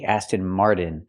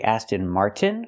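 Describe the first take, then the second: First: The t in Martin sounds like a quick d. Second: The t in Martin is a full t. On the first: The speaker calls it wrong. "We cannot pronounce it with a fast D" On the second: The speaker calls it right. "with a T"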